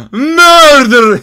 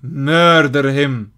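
First: Loud, drawn-out cry. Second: Said in the usual way. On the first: Real, not acted. Gamer cries out the order to murder. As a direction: belt the word out.

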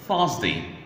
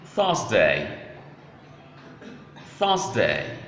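First: "Thursday" said as "THURZ-dee"; reduced-ending pronunciation. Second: "Thursday" with a clear "day" ending; full-vowel pronunciation. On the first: Teacher offering learners another pronunciation, short "dee" ending. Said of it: "You may also pronounce Thursday as". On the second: Teacher showing the class how to pronounce days, clear full "day". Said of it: "how to pronounce days of the week". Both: Shown as a demonstration.

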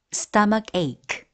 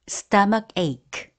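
The two takes are said the same way.

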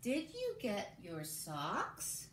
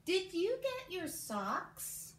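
First: Put-on very slow, each word set apart for young writers; slow dictation. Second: Very slow, higher and louder, leading the class; slow choral dictation. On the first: Teacher dictating the sentence to the class, very slowly. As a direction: read it out word by word so kids can follow. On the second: Teacher leading kids in saying the sentence together, slow and lifted. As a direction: stretch every word and pull the kids along with you. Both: Shown as a demonstration. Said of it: "Say it with me one more time".

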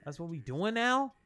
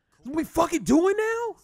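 First: Said in the usual way. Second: Loud, much higher, outraged repeat of the question; outraged shout. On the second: Real, not acted. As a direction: yell the question in indignant disbelief.

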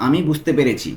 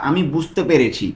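The two takes are said the same way.

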